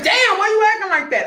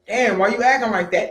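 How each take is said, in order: First: It is said in a confrontational, aggressive tone. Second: It is said in a casual, relaxed tone.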